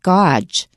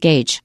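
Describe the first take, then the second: First: The word is said the way its letters suggest. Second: The word is said with its usual pronunciation. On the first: The speaker calls it wrong. "to me it looks like gauge" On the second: The speaker calls it right. "but we pronounce it gauge"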